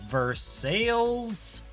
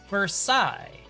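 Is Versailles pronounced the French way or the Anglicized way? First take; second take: Anglicized; French. First: The name is given an Anglicized Southern pronunciation. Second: The name is given its French pronunciation. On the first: This is the name of the Kentucky town. "not in the American South" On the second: This is the name of the French palace. "This is a French word"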